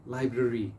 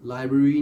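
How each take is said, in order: First: लाइब्रेरी with both r sounds; correct library. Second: लाइब्रेरी dropping the second r, lai-bri; wrong library. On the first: Teacher modelling both r's in लाइब्रेरी. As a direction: say लाइब्रेरी as lai-bre-ri. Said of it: "दोनों आर्स को pronounce करना है". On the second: Teacher showing the dropped-r लाइब्रेरी to avoid. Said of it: "लाइब्रेरी नहीं कहना आपने". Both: Shown as a demonstration.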